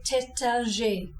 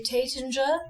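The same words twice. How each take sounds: First: Taittinger slow, French teh-tan-zhay. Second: Taittinger as English tay-tin-jer; wrong English Taittinger. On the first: Teacher giving the correct French Taittinger. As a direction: Taittinger with nasal middle vowel. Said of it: "you say Taittinger". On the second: Teacher showing the snobby wrong Taittinger. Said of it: "You don't say Taittinger". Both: Shown as a demonstration.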